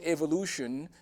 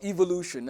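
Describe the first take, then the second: First: The word is said in an American way. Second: The word is said in a British way.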